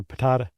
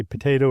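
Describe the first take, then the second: First: "patata" with a broad AH, puh-TAH-tuh; joke pronunciation. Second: "potato" with a long AY, puh-TAY-to; usual pronunciation. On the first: Host jokes about the other way, "patata" as puh-TAH-tuh. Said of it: "whether you say potato or patata". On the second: Host answers with the old saying, "potato" as puh-TAY-to. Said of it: "depends on whether you say potato". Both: Shown as a demonstration.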